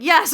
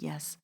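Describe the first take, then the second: First: Loud, high triumphant yes; excited confirmation. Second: Private agreement. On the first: Audience member confirming Bree's message, loud excited yes. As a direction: burst out with joyful agreement. Jubilant confirmation, nodding so hard. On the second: Audience member nodding along privately, very soft confirmation. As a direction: say it softly, just to yourself. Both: Retold or imitated.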